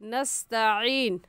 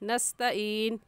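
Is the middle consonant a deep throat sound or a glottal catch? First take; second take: throat sound; glottal catch. First: The middle consonant is a deep throat sound. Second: The middle consonant is a brief glottal catch. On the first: We ask You for help. The speaker calls it right. "आइन के साथ" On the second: We grow tired of You. The speaker calls it wrong. "आइन की जगह हमज़ा पढ़ जाते हैं"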